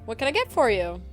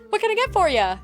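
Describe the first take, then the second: First: It is read in a plain, flat tone. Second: It is said in a cheery, welcoming tone.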